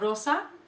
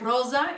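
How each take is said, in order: First: The middle consonant is a hissing s sound. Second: The middle consonant is a buzzing z sound. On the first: This is the modern Spanish form. "instead of rosa" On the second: This is the older form kept in the community's language. "like the Z sound. So people will say rosa"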